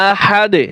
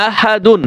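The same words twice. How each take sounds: First: আহাদে with final d bounced into a tiny echo; qalqalah stop. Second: আহাদুন with full "dun" ending; unstopped reading. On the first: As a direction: drop "un", pop the d of আহাদে. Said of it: "কলকলা হবে". (শেষে দালে কলকলা করে আহাদে) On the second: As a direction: say আহাদুন through to a clear "-dun". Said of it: "আমরা আহাদুন কিন্তু বলি না". (শেষে "দুন" সহ আহাদুন) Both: Shown as a demonstration.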